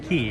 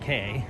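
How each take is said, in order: First: The word is said like "key". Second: The word is said like "kay". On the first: The speaker calls it right. "the correct pronunciation is Key" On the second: The speaker calls it wrong. "it looks like it says K"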